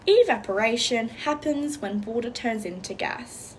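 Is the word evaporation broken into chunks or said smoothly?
smooth. Evaporation is said smoothly without breaks. "all together without the chunking"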